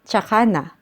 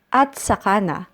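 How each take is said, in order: First: The opening is shortened to a 'ts' sound. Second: The first word 'at' is said in full. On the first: "often pronounced as tsaka na" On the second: "Next we have at saka na"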